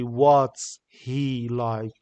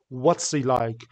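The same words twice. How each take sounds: First: The h in 'he' is clearly pronounced. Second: The h in 'he' is dropped and linked. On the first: The speaker calls it wrong. "We don't say what's he like" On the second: The speaker calls it right. "We reduce H here. We say what's he like?"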